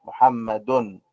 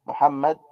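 First: محمد ending in a clearly sounded "-dun"; tanween pronounced. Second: Said in the usual way. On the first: Shown as a demonstration. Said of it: "دال، نون". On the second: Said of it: "ميم، حاء، ميم، دال".

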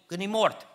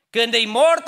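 First: Said in the usual way. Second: "Când e mort" repeated much louder and higher. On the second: Shown as a demonstration. Preacher driving the point home, loud high repeat.

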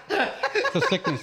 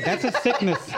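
First: High, slow, hammed-up take on "It's a sickness"; Daniel Glover impression. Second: Said in the usual way. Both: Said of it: "You know that commercial when he goes".

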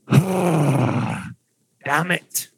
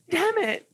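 First: Put-on gruff Dwarvish-accented curse; botched elf line in a dwarf accent; wrong-voice dwarvish. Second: Put-on high light elven girl's curse. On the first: GM voicing the elf in a dwarf accent by mistake. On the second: GM redoing the elf girl's curse, high and dainty. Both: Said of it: "I did the wrong voice".

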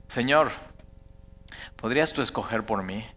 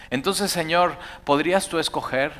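First: Softer, lower, humble plea to God; soft prayer. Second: Said in the usual way. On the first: Shown as a demonstration. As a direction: pray it gently as your own request. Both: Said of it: "aprendas a decir eso".

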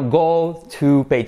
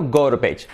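First: Slow, separate words; slow model. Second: Quick, run-together "go to page"; rapid connected "goro-page"; fast and linked. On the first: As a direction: say GO TO PAGE slowly, word by word. Slow model before linked version. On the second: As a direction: link GO TO PAGE into one word with a tapped T. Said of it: "pronunciado rápido y unido". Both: Shown as a demonstration.

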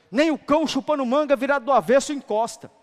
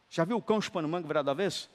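First: Loud, high preacher's punchline; shouted punchline. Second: Said in the usual way. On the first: Shown as a demonstration. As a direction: throw it out at full volume. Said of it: "punchline set against the calm repeat". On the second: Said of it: "repeat asked quietly as a question".

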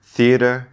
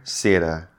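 First: Theater with a clear th, higher and louder; native th. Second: Theater said as "siater" with s for th. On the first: Teacher models native theater with a clear th. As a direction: bite the th in theater. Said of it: "So you're listening". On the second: Teacher shows the learner's s for th in theater. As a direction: swap the th in theater for an s. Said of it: "I replace it with an S". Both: Shown as a demonstration.

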